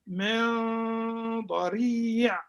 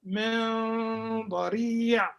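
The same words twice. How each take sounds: The two takes are said the same way.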